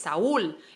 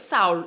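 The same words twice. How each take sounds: First: The u is strong and forms its own syllable. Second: The u is weak and joined to the a. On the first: The speaker calls it right. "acentuamos esta U para darle la fuerza" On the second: The speaker calls it wrong. "no es Saúl el nombre"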